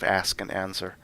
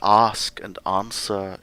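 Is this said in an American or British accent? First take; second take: American; British. First: It is said with a North American accent. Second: It is said with a crisp British accent. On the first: "instead of" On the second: "it was very British"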